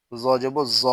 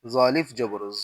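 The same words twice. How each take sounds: First: Final জ with a short vowel; জ not drawn out; no stretch. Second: Final জ with a long vowel; জ held long; stretched vowel. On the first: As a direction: cut the last জ short. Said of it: "তখন কোথাও টান দিব না". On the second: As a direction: draw out the last জ. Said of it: "জবরে আমরা টান দিব". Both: Shown as a demonstration.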